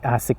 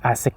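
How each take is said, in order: Both takes have the same delivery.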